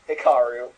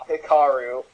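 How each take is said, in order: Both takes have the same delivery.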